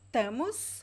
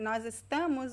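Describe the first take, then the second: First: The phrase is cut down to two syllables. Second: The phrase is said fully, with every syllable. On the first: "we say tamos" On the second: "Instead of saying nós estamos"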